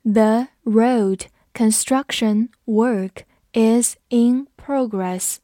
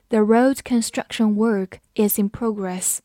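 First: Very slow, each word set apart; slow reading. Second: Said in the usual way. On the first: Shown as a demonstration. Teacher reads the example slowly for students, slow reading. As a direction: read it slowly, pausing between words. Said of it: "我们慢读一遍".

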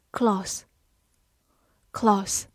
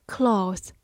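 First: "cloth" with a short o; short-o "cloth", as in "hot"; short vowel. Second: "cloth" with a long "aw" vowel; long-vowel "cloth", like "clawth". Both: Shown as a demonstration. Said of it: "或者长音cloth".

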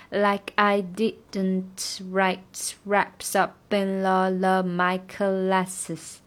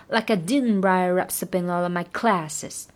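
First: Very slow, uneven rhythm; slow rhythm demo. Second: Said in the usual way. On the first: Shown as a demonstration. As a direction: stretch cla, slow all through. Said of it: "它不是很均匀的分配". (慢速，节奏不均匀) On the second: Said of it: "这个cla要拖长一点".

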